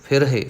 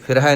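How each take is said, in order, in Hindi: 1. यह शब्द 'e' स्वर पर खत्म होता है। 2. यह शब्द 'ai' स्वर पर खत्म होता है। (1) "ਫਿਰਹੇ ਹਾਹੇ ਨੂੰ ਸਿਹਾਰੀ ਹੈ" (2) "ਨਹੀਂ ਕਹਿਣਾ, ਫਿਰ ਹਾਹੇ ਤੇ ਦੁਲਾਵਾਂ ਲੱਗ ਜਾਣਗੀਆਂ"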